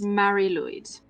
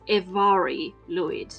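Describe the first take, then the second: First: The first word sounds like English 'Mary'. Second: The first word sounds like 'Evari', not 'Mary'. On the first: The speaker calls it wrong. "I thought this was pronounced" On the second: The speaker calls it right. "apparently it is pronounced"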